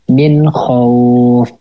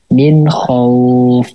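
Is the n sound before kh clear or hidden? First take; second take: clear; clear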